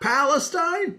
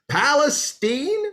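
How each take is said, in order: First: It uses a non-local pronunciation of the name. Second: It uses the local Texas pronunciation of the name. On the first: The speaker calls it wrong. "not Palestine" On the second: The speaker calls it right. "It's Palestine, not Palestine"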